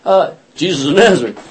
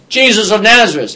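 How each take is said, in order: First: Sheepish repeat. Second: Crowd announcing. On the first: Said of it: "and they say". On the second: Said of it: "they all announce". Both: Retold or imitated.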